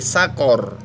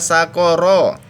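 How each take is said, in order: First: The word ends with a bare r. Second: The word ends with an r plus vowel. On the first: The reading stops here. "jika kita baca berhenti ... menjadi sukun" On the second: The reading continues. "ro-nya berharokat fathah"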